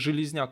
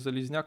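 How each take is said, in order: First: The name begins with a 'zh' sound. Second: The name begins with a 'z' sound. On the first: The speaker calls it right. "кстати, Железняк, а не Залезняк, мне сказали" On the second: The speaker calls it wrong. "а не Залезняк"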